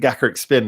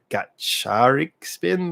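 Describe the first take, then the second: First: The second syllable starts with a K sound. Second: The second syllable starts with a CH sound. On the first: The speaker calls it wrong. "was it Gakaric Spin?" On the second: The speaker calls it right. "It turns out it's like Gatcharik Spin"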